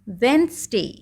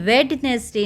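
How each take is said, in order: First: The d is silent, with two syllables. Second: The d is sounded, with three syllables. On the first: The speaker calls it right. "आपका डी यहाँ पर silent हो गया" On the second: The speaker calls it wrong. "ये वेडनेसडे नहीं बोला जाता है"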